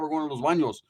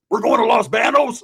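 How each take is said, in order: First: Los Banos is said with a Spanish accent. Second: Los Banos is said with an Anglo American accent.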